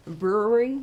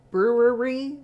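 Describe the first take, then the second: First: Brewery finally landed cleanly, br-ew-ery; brewery said right. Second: Brewery blurted loud with the r swallowed, ui; stumbling on brewery. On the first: Finally nailing brewery while telling the story, relieved. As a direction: get brewery out properly at last. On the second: Tripping over brewery while telling friends, blurted loud. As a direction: fight the word brewery and mangle it. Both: Shown as a demonstration. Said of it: "a brew-, a brew".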